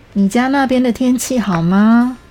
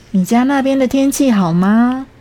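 No difference in how they are said.

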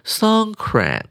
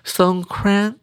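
First: It is said with an English pronunciation. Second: It is said with a Thai pronunciation.

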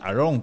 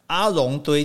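First: The name is said with a French-sounding flavor. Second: The name is said with plain Mandarin syllables. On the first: The speaker calls it right. "很有法文的味道了" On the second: The speaker calls it wrong. "听起来就。怪怪的哈"

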